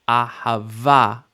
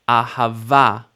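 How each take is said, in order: The two takes are said the same way.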